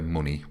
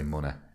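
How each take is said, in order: First: The word ends in a plain 'ee' vowel. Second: The word ends in an open 'eh' vowel. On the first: "we don't say money" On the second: "We say money. With an e, with an e and a h on the end"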